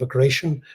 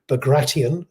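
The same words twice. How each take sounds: First: The name is said the Western way. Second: The name is said the Russian way. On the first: "which is tends to be the Western way" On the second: "the Russian pronunciation would be"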